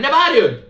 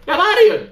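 First: Startled retort. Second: Much higher second outburst; high-pitched, rattled protest; escalating startled retort. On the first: Player snaps back at screeching duck. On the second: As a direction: throw it back in a high yelp. Repeats retort higher at the duck. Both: Real, not acted.

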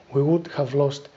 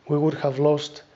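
No difference in how they are said.

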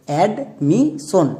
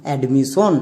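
First: admission very slowly in parts, ad... mi... shon; syllable by syllable. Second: Said in the usual way. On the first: Shown as a demonstration. Teacher has pupils sound out the word, admission slowly syllable by syllable. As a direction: break admission into separate, drawn-out syllables. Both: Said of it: "একসঙ্গে উচ্চারণ করো".

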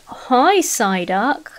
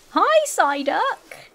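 First: Said in the usual way. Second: High, very slow stretched-out hi; cooing greeting. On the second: Real, not acted. Trying to win over Psyduck, a slow high coo. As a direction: coax a wild Psyduck closer.

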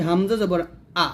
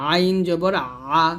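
First: Short, light আ with no throat squeeze; light hamza. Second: আইন and আ pressed from mid-throat, long drawn out; squeezed ayn. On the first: Teacher contrasting hamza with ayn, light short আ. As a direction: say হামজা জবর আ briskly, the আ light and unpressed. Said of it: "এটা হলো হালকা". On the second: Teacher demonstrating ayn for learners, thin squeezed throat sound. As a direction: squeeze the middle of the throat and hold আইন and আ slowly. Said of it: "হলকের মাঝখান থেকে চাপ দিয়ে". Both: Shown as a demonstration.

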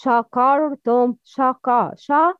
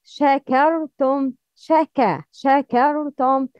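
First: "shakartum" with dark back vowels, "shaw-kaw"; wrong heavy shin. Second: "shakartum" with thin front vowels, "sheh-keh"; correct light shin. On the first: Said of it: "The wrong pronouncing is". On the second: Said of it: "the right pronouncing for this word". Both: Shown as a demonstration.

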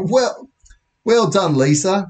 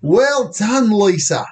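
First: Higher, milder British accent attempt; bad British accent, retried. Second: Hammed-up, high British accent; bad British accent. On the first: Police officer praising a girl, in a toned-down British accent. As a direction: have another go at a British officer. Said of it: "worst British accent I've ever tried". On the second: Police officer praising a girl, in a bad British accent. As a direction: attempt a poor British accent, pitched up. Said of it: "That's the worst British accent".

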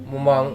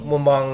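The two takes are said the same way.

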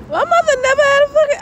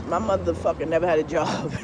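First: Mock squeal, much higher and louder; high-pitched squeal of the same line. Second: Said in the usual way. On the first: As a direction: shriek it up high for a laugh.

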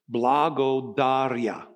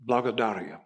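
First: Slow "Blagodaria" said syllable by syllable, Bulgarian accent; Bulgarian word. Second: "blagodaria" run together quickly and quietly; Bulgarian word. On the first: A pastor teaching his congregation "Blagodaria", slowly and carefully. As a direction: spell out "Blagodaria" slowly, bla-go-da-ri-a. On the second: A pastor putting the Bulgarian word together, "blagodaria" said quietly. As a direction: say "blagodaria" as one smooth word, softer. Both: Shown as a demonstration. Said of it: "I'm speaking it with an accent".

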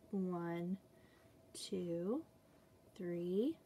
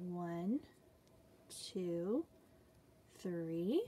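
No difference in how they are said.

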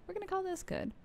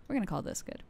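First: Much higher, playful delivery; high-pitched repeat. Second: Said in the usual way. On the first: Pretend. Streamer settling on a game setting, playful high repeat. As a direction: lift the whole line up high.

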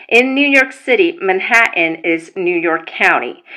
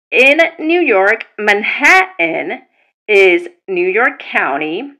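First: Said in the usual way. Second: "Manhattan" drawn out slowly, then "is New York County" spelled out deliberately; slow emphatic restatement. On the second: Shown as a demonstration. Explaining court names to non-New Yorkers, slow and emphatic. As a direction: spell it out slowly so nobody misses it.

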